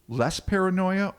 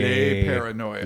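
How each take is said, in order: First: The name sounds like the word 'less'. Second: The name sounds like the word 'lay'. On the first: "less as in short for Lester" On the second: "to get all French with it"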